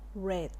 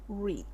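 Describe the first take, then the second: First: The vowel is short, like 'red'. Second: The vowel is long, like 'reed'. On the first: It is the simple past form. "pero se pronuncia red, como el color rojo" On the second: It is the past participle form. "va a volver a sonar como la base"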